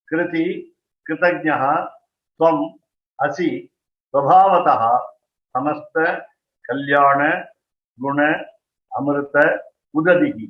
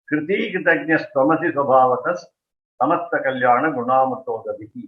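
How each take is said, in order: First: It is read slowly, word by word. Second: It is read fast, words run together.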